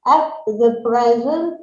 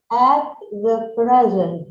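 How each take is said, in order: First: At the present, rising at the end; rising question tune. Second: At the present, dropping at the end; falling statement tune. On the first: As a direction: say at the present with an upward lift. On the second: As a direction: settle at the present down firmly. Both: Shown as a demonstration.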